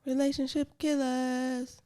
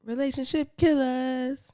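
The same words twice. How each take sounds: First: Airy, high, slow, drawn out; dream voice. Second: Lightly airy, high and stretched; dream voice. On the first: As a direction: float it out like in a dream. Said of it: "I tried to say that in my dream voice". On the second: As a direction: float the title out like a dream. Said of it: "Hit it again". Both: Shown as a demonstration.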